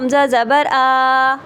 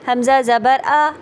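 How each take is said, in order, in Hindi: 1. अंतिम स्वर खींचकर लंबा किया गया है। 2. अंतिम स्वर छोटा और सहज है। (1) "ये लंबा हो गया" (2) "नॉर्मल तरीके से"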